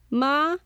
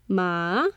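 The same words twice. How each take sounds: First: The pitch rises from mid to high. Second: The pitch dips low, then rises.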